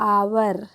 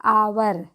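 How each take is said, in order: The two takes are said the same way.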